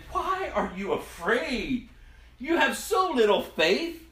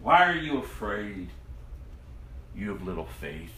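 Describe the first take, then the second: First: Slow, higher rebuke that lifts on the last line; Jesus calmly questioning his disciples. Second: Jesus gently questioning his frightened disciples; gentle rebuke. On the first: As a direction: ask it slowly, then press the point. Jesus answers the frightened disciples. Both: Acted.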